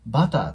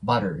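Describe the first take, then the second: First: The middle consonant is a clear T sound. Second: The middle consonant is a light R-like flap. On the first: The speaker calls it wrong. "butter って発音するよりも" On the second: The speaker calls it right. "アメリカ英語ではbutter の方が自然に聞こえます"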